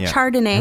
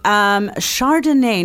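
First: The word begins with a hard 'ch' sound. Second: The word begins with a soft 'sh' sound. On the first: The speaker calls it wrong. "not Chardonnay" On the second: The speaker calls it right. "So Chardonnay"

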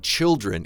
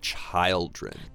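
First: The first vowel is short, as in 'chill'. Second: The first vowel is long, as in 'child'. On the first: The speaker calls it right. "But when we say children" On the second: The speaker calls it wrong. "it's not children"

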